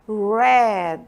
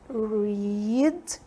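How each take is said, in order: First: The word sounds exactly like 'red'. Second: The word does not sound like 'red'. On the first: It is the past tense. "a forma do passado você vai ler red" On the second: It is the present tense. "aqui o presente você lê read"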